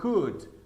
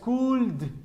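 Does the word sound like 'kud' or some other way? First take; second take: kud; other way. First: The word is said as 'kud'. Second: The word is not said as 'kud'. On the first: The speaker calls it right. "sino could. Algo más o menos así, could. K U D" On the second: The speaker calls it wrong. "no es could ni nada de eso"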